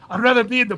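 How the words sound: It is read in an imitated Australian accent.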